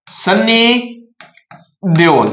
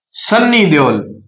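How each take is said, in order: First: Sunny and Deol split by a long pause; slow spaced name. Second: Said in the usual way. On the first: Shown as a demonstration. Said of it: "कौन?". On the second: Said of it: "अब आपको याद रखना है कौन?".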